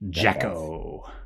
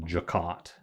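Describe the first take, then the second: First: The final T sound is left silent. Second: The final T sound is pronounced. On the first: The speaker calls it right. "that T is silent" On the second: The speaker calls it wrong. "It sounds better than"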